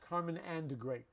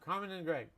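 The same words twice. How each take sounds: First: The word 'and' is pronounced fully and clearly. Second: The word 'and' is reduced to a short 'mm'. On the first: The speaker calls it wrong. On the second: The speaker calls it right. "mm means and. We say that all the time"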